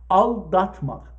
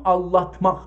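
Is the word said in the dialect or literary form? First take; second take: literary; dialect. First: The middle keeps a clear l followed by d. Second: The l and d sounds are changed in the middle. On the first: This is the literary form. "aldatmak ادبی شه" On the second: This is how it is said in Azerbaijan. "تو آذربایجان بین د و ل عوض شده"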